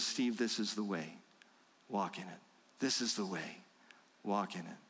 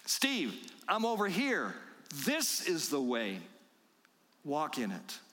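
First: Softer and lower, a tender murmur at the shoulder; gentle fatherly nudge. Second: Calling out to a stray. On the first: Heavenly Father squeezing Steve's shoulders, soft tender guidance. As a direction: coax him kindly from just behind. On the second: Shepherd calling wandering Steve back, slow patient call. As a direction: call him back from up ahead. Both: Acted.

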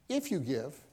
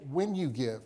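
First: "If" lightly stressed, rising, as the rejected reading; wrong word stressed. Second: "When" stressed and spoken firmly as the true wording. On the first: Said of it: "He did not say". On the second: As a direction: put the weight on "When". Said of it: "He said". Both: Shown as a demonstration.

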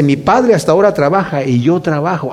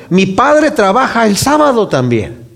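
First: Said in the usual way. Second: Slow, weighty stress on "Padre"; deliberate preacher's emphasis on "Padre". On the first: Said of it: "Y el Señor les dice". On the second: Shown as a demonstration. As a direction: lean into "Padre" slowly and firmly. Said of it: "O sea, le está diciendo".

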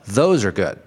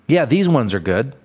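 First: Said in the usual way. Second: Mock store clerk. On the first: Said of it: "that's how you correct that". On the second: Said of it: "I hear this at, like, shoe stores".

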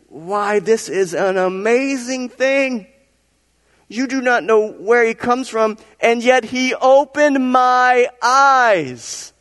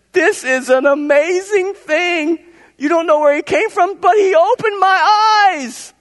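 First: High, slow exclamation of wonder; amazed blind man. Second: Very high, loud, drawn-out cry; exultant blind man. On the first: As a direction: stretch out the astonishment, voice lifted high. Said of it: "That's how he said it". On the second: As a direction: cry out in astonishment at full pitch. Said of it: "I think that's how he said it". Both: Acted.

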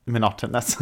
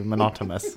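First: "Monotonous" with N in the last syllable; careful corrected pronunciation. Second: "monotonous" slipping to monotomous, with M; mispronounced word. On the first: Shown as a demonstration. Echoing the friend's correction, "Monotonous" said with a clear N. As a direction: repeat "Monotonous" as mo-NOT-uh-nus. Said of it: "Work, monotonous". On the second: Real, not acted. Agreeing about work, "monotonous" mispronounced as monotomous. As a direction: put an M for the last N in "monotonous". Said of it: "It's not like monotonous".

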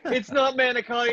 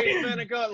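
First: "manicotti" with all four syllables, pitched high; high mock correction, full "manicotti"; manicotti as written. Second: "manicotti" cut to "manigot", final vowel dropped; high mock correction, "manicotti" losing its last syllable; dialect manicotti. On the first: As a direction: say "manicotti" in full, ending in "tee". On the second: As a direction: say "manicotti" as Italian-American "manigot". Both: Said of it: "that is also the wrong pronunciation".

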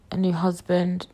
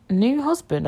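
First: Said in the usual way. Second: Higher, questioning echo of "new husband"; querying own words. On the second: Real, not acted. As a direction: lift "new" in disbelief. Queries own slip, never had one.

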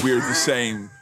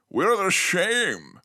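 First: Said in the usual way. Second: Slow, slurred Connery "same" like "shame"; Sean Connery accent. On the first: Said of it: "sorry, I wrote that". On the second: Retold or imitated. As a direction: drag out "We're the same" as "We're the shame". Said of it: "he's all like".

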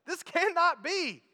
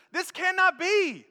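First: Cannot hit hard, be falls away; this cannot be, weight on cannot; stress on cannot. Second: Be drawn out and falling at the end; this cannot be, weight on be; stress on be. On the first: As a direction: punch the word cannot, slowly. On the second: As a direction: land hard on be, slowly. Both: Shown as a demonstration.

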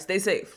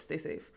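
First: Said in the usual way. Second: Much softer, lower trailing repeat; soft stay safe. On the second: Acted. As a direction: let it fade off quietly. Quieter repeat of phrase.

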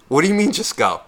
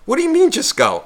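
First: Imitating the girl. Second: Much higher mock girl, hand on his shoulder; exaggerated girl voice. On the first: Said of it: "And she goes". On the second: Teller mimicking the girl touching his shoulder in a much higher voice. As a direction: push the pitch way up, pleading. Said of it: "put her hand on my shoulder and she goes".

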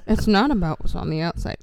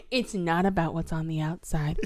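First: Loud, voiced mock moral; mock emphatic. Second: Whispered mock moral; stage whisper. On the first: Mocking the movie's heavy motif, loud and emphatic. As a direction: repeat the lesson loudly. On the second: Mocking the movie's heavy motif, stage whisper. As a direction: whisper the lesson pointedly.

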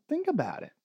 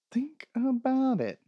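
First: Said in the usual way. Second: Slow, emphatic "Think about it", each word drawn out; drawn-out emphasis. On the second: Real, not acted. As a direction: THINK ABOUT IT stretched out slowly, higher. Repeat of the line, stretched out.

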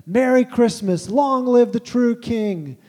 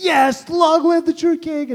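First: Slow, high and loud, a defiant joyful cry; booming Father Christmas, drawn out and triumphant; defiant joyful proclamation. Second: Imitating himself cheering, much higher and louder, slow; a dad overcome, cheering through tears; mock-tearful triumphant shout. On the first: Acted. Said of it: "defiant, joyful response". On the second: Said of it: "and, like, crying".

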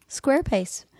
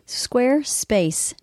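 First: Said in the usual way. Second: Squarespace drawn out slowly, stretched syllables; slow brand tag. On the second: Shown as a demonstration. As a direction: savour the name Squarespace slowly.

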